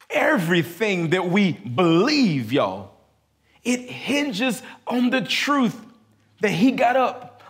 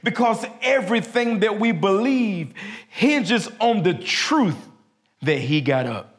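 First: It is said at a slow pace. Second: It is said at a fast pace.

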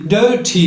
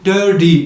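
First: The middle t is a clear stop. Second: The middle t is a quick flap. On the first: "İngiliz İngilizcesinde" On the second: "Amerikan İngilizcesinde flap yapılarak"

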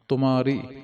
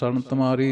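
First: The first syllable has a 'u' vowel. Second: The first syllable has an 'a' vowel. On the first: The speaker calls it right. "ਤੱਤੇ ਦੀ ਔਂਕੜ" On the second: The speaker calls it wrong. "ਸਰਣ ਤੁਮਾਰੀ ਨਹੀਂ ਕਹਿਣਾ"

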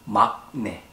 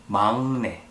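First: The first syllable ends with a k sound. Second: The first syllable ends with an ng sound. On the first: The speaker calls it wrong. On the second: The speaker calls it right. "it should sound like 응"

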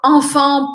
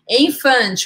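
First: It is said with a French nasal vowel. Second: It is said with a Portuguese accent. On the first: The speaker calls it right. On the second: The speaker calls it wrong.

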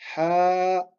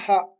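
First: The vowel is drawn out long. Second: The vowel is said short. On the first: The speaker calls it right. "C'est comme si c'était une fatha qu'on allongeait de temps" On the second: The speaker calls it wrong. "On va pas dire ha"

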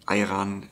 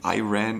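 First: The word is said with a German pronunciation. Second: The word is said with an American pronunciation. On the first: "as we say it in German" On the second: "if I pronounce it more English or more American"

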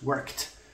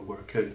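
First: The ending is a single t sound. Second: The ending is said as an extra syllable. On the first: The speaker calls it right. "it's worked" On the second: The speaker calls it wrong. "we don't say worked"

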